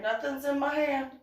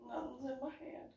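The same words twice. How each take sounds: First: High, quick squeak of innocence; defensive denial. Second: High and very soft repeat; small-voiced denial. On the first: Retold or imitated. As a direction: act a badly faked denial. Denies hiding anything. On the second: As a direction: act a sheepish, tiny protest of innocence. Repeats denial, much softer.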